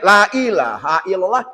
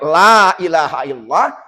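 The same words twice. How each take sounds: First: The first 'la' has a short vowel. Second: The first 'la' has a long vowel. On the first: By oath, there is a god other than Allah. The speaker calls it wrong. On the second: There is no god but Allah. The speaker calls it right.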